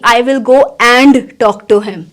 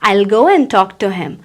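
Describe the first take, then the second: First: 'I will' is said as two separate words. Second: 'I will' is blended into one syllable. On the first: The speaker calls it wrong. "ना कि" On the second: The speaker calls it right. "आई विल को मैंने ऐसे blend करके बनाया"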